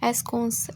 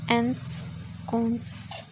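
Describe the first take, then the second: First: Said in the usual way. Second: एंसकोंस drawn out very slowly, part by part; slow sounding-out. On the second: Shown as a demonstration. Teacher working through a vocabulary word, एंसकोंस sounded out slowly. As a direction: stretch out each part of एंसकोंस.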